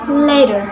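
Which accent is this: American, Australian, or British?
American. It is spoken with an American accent. "In American accents"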